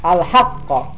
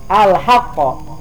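No difference in how they are said.

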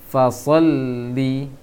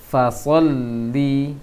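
The two takes are said the same way.

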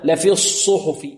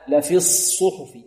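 First: The first s sound is said with rounded lips. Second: The first s sound is said with unrounded lips. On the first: The speaker calls it wrong. "البعض يضم شفتيه في الصاد" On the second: The speaker calls it right. "الصاد الأولى الساكنة لا نضم فيها الشفتين"

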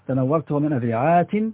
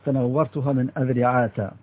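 First: The last word ends in -i with a final n. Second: The last word ends in -a without a final n. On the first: "بالكسر والتنوين" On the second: "وبالفتح اللي هو إعراب الممنوع من الصرف"

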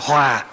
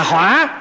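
First: The word is said on a low falling tone. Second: The word is said on a dipping tone. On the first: Harmony. "chuyển nó thành dấu huyền" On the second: Fire. "một cái dấu hỏi nó thành lửa là hỏa"

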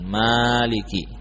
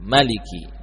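First: The vowel after the m is long. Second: The vowel after the m is short. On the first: "dengan memanjangkan Maliki" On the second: "Ada bacaan dengan mim Maliki"

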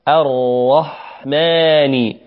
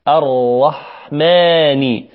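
The two takes are said the same way.

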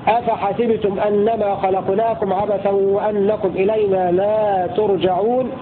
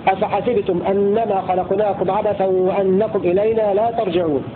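The two takes are said the same way.

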